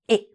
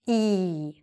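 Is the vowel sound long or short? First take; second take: short; long. First: The vowel is very short and quick. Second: The vowel is drawn out and long. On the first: The speaker calls it right. "the correct way again" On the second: The speaker calls it wrong. "The wrong way, which many people do say, is to make it long"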